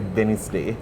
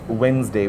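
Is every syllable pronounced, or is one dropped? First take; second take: every syllable; one dropped. First: Every syllable is pronounced fully. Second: One syllable is dropped, as usual. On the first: The speaker calls it wrong. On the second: The speaker calls it right.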